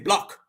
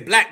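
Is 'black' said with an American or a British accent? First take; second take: British; American. First: It is said with a British vowel like 'block'. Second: It is said with an American vowel. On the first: The speaker calls it wrong. "they say block" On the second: The speaker calls it right.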